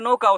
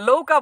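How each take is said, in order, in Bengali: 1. শব্দটি n ধ্বনি দিয়ে শুরু হয়। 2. শব্দটি l ধ্বনি দিয়ে শুরু হয়। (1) "সঠিকভাবে নৌকা উচ্চারণ করতে পারে না" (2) "লৌকা বলে"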